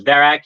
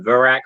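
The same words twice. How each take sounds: First: Verak with a clear 'veh' first syllable; own pronunciation of Verak. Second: Verak with a reduced 'vuh' first syllable; co-host's pronunciation of Verak. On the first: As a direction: say Verak as 'VEH-rak'. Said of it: "I pronounce him as Verak". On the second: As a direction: say Verak as 'vuh-RAK', like the co-host. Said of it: "you call him Verak". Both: Shown as a demonstration.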